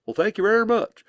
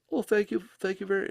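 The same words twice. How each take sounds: First: Higher and louder, hammed-up English "thank you very much"; exaggerated English accent. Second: Higher, a touch of posh English thanks; a lightly put-on English accent, pitched up; mock English accent. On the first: [name] mimics Billy's thanks in an overdone English accent. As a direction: ham up a plummy English accent, pitched high. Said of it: "he doesn't sound like that either". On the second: [name] imitates Billy thanking him in a mock English accent. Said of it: "of course, he's not English".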